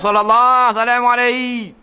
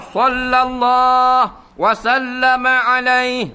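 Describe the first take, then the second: First: The middle is said as 'salamu' with single l. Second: The middle is said as 'wa sallama' with doubled l. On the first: The speaker calls it wrong. "Tidak ... Apa benda?" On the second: The speaker calls it right. "Baru betul"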